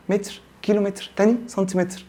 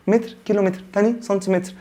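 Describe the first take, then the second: No difference in how they are said.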